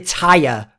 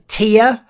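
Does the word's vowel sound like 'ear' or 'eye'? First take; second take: eye; ear. First: The vowel sounds like the word 'eye'. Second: The vowel sounds like the word 'ear'. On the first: The speaker calls it wrong. "Don't say tire" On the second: The speaker calls it right. "it's called tier"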